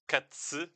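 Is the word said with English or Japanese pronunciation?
Japanese. It is said with vowels added, 'ka-tsu'.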